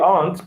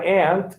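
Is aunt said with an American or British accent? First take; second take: British; American. First: Aunt is said with a British accent. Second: Aunt is said with an American accent.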